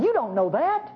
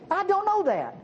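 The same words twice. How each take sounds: First: "You don't know that" lifted at the end; rising tune on "You don't know that"; pointed contrast. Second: "I don't know that" held high, then dropping; emphatic admission. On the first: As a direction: send "know that" up like a challenge. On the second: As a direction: pitch "I don't know" high and fall hard on "that". Preacher contrasts "I" with "you. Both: Shown as a demonstration.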